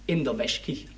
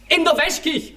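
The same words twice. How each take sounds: First: Said in the usual way. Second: Indignant disbelief. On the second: Retold or imitated.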